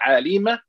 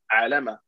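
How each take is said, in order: First: The middle vowel is an 'i' sound. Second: The middle vowel is an 'a' sound. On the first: The speaker calls it wrong. "Not alima" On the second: The speaker calls it right. "You read it nicely"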